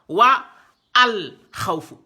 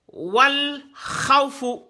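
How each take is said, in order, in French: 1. La voyelle de l'article est prononcée séparément. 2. La voyelle de l'article est omise et liée. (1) "on l'ignore pas" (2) "on l'ignore"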